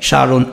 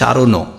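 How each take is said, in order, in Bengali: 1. শব্দটি শুধু ন ধ্বনি দিয়ে শেষ হয়। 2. শব্দটি একটি যুক্ত ও-কার স্বরধ্বনি দিয়ে শেষ হয়। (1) "হসন্ত তো দিতেই হবে" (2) "যদি হসন্ত না দাও তাহলে উচ্চারণ হবে কি সারণও"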